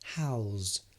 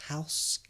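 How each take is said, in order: First: The word ends with a buzzing Z sound. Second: The word ends with a hissing S sound. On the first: It means to welcome someone into your home. "has become a Z" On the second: It names a building where people live. "you see the S"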